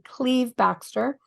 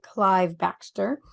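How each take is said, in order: First: The first name has the vowel of 'leave'. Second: The first name has the vowel of 'five'. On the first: The speaker calls it right. "It's actually Cleve Baxter" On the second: The speaker calls it wrong. "most people would pronounce it Clive Baxter"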